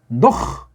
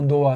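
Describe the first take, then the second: First: The name ends with a throaty h sound. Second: The name ends on a plain vowel. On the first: "노흐라고 하세요" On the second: "헤이트자를 없애고"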